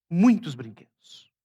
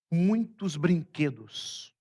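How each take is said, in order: First: "Muitos brinquedos" repeated louder and slower, leaning on "Muitos"; stressed repeat. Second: Said in the usual way. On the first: Shown as a demonstration. Pastor describing his vision to the church, stressing "Muitos" louder and slower.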